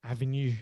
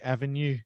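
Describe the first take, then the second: First: The stress is on the last syllable. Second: The stress is on the last syllable.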